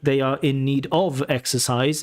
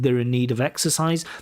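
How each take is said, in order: First: Every small word is fully and evenly pronounced. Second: The small words are shortened and run together. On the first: The speaker calls it wrong. "Sometimes your stress timing is a little bit off. You say like" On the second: The speaker calls it right. "instead of"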